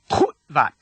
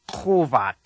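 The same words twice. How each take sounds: First: Kutvat with the first syllable stopped short; abrupt cut-off. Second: Kovat with a long, open first vowel; no cut-off. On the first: Teacher shows the correct pronunciation, kutvat cut off mid-word. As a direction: cut kutvat sharply between kut and vat. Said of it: "This abrupt cutoff". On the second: Teacher shows the mistake to avoid, kovat drawn out without a break. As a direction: let kovat run on slowly without the mid-word stop. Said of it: "not kovat". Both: Shown as a demonstration.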